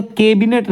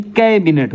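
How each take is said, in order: First: कैबिनेट with a close e, "kay-binet"; higher कैबिनेट with narrow first vowel; wrong pronunciation. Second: कैबिनेट with an open ai, "kae-binet"; correct pronunciation. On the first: Teacher rejecting the misspelling, close-e "kebinet" for कैबिनेट. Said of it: "कैबिनेट नहीं". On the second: Teacher correcting students, open-ai "kaibinet" for कैबिनेट. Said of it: "कैबिनेट होता है". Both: Shown as a demonstration.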